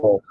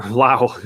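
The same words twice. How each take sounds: First: Lowell said LOWL, one syllable; northern accent. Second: Lowell said as LOH-ell; correct pronunciation. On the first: Real, not acted. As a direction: Lowell clipped to rhyme with owl. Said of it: "my northern accent coming out". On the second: Shown as a demonstration. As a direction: Lowell with a long o, two syllables. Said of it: "That would be Lowell girls".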